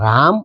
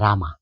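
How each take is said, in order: First: The word ends without a long final vowel. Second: The word ends with a long 'aa' vowel. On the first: It names Lord Rama. The speaker calls it right. "રામ એટલે શું? તો કે શ્રી રામ" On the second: It means a beautiful woman or beloved. The speaker calls it wrong. "રામા એટલે સુંદર સ્ત્રી અથવા પ્રિયતમા"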